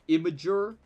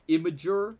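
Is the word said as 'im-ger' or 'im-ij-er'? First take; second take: im-ij-er; im-ij-er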